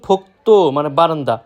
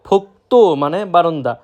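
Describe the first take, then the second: Both takes have the same delivery.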